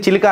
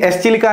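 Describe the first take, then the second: First: The word starts with 'chilika', no 'es' sound. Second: An 'es' sound is said before 'chilika'. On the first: "ఎస్ silent ఉంటుంది" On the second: "spelling easy ఉంటుందని"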